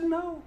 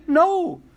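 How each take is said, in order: First: Said in the usual way. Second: "no" hit hard and louder; emphatic no. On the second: Shown as a demonstration. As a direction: punch "no" with full weight.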